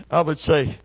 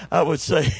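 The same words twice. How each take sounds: The two takes are said the same way.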